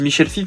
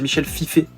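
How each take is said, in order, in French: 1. Le nom finit sur un son de consonne. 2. Le nom finit sur un son de voyelle 'é'. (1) "moi je dis Michel Fif" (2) "je crois que ça se dit Michel Fifé"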